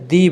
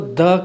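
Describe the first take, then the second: First: The vowel is a long 'ee'. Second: The vowel is a short, neutral 'uh'. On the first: "मैंने इसको द के बजाय दी बोला" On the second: "द के बजाय"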